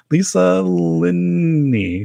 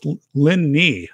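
First: "Lisa Linney" drawn out very slowly, higher, unsure; still fumbling the name. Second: "Linney" said slowly as LIN-nee, rhymes with knee; two-syllable name. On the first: Retold or imitated. Host admitting he still stumbles on the name, drawn out. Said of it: "I'm still like". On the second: Shown as a demonstration. Host coaching a guest's surname, slow and careful. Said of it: "It's two syllables".

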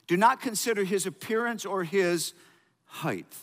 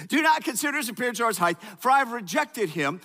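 First: Said in the usual way. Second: Rushed reread. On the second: Shown as a demonstration.

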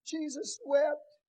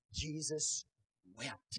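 First: "Jesus wept." drawn out slow, louder and higher; slow, weighty reading. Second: Said in the usual way. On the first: Shown as a demonstration. Preacher dwelling on the verse for the congregation, slow and weighty. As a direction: let each word of "Jesus wept." land heavy. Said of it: "The shortest verse in the Bible". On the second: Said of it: "Verse thirty-five".

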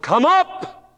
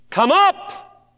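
First: High, loud shout of come up; the Lord shouting to his church; shouted call. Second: High, loud call upward; the Lord calling the church up; ringing call. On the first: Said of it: "he's going to shout". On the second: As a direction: call it out like a summons. The Lord's call. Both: Acted.

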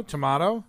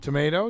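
First: "tomato" as to-MAH-to; broad-a tomato. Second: "Tomato" as to-MAY-to; long-a tomato. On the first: Co-host capping the potato joke, "tomato" as to-MAH-to. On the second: Co-host capping the potato joke, "Tomato" as to-MAY-to. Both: Shown as a demonstration. Answers with contrasting pronunciations.

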